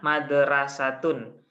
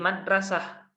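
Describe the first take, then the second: First: The word ends with a full -tun ending. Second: The word ends with a stopped H sound. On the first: "Tulisannya madrasatun" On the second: "Kalau ini mau dibaca mati"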